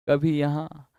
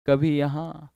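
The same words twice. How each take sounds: The two takes are said the same way.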